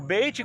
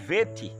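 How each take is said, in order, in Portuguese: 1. A palavra começa com som de B. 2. A palavra começa com som de V. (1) "O beit com um dagueche, ela tem um som de B" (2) "Sem um dagueche, ela tem um som de V, de vete"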